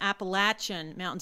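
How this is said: It is said with a Southern US pronunciation.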